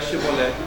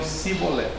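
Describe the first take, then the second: First: The word begins with a sh sound. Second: The word begins with an s sound. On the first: The speaker calls it right. "não conseguiam pronunciar Shebolé" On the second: The speaker calls it wrong. "eles diziam Sibolé"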